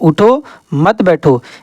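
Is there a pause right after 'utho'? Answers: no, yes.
yes. There is a pause after 'utho'.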